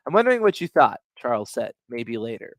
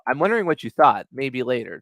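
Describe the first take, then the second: First: A clear break after "thought" before "maybe later"; pause in the dialogue. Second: Said in the usual way. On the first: Shown as a demonstration. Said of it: "I hear a pause in the dialogue". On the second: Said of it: "This one, I don't".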